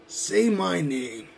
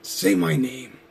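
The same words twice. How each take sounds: First: Very slow say my name; slow menacing. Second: Said in the usual way. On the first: Acted. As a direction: drag out say my name with each word held. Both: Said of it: "I'm gonna make you say my name".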